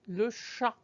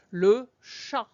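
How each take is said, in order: First: Le chat, T unsounded; silent final T. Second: Le chat with a silent T; silent final T. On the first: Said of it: "you don't even hear any sound for the T". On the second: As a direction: chat with no T at the end, shah. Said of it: "Notice that in chat, I don't say chat". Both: Shown as a demonstration.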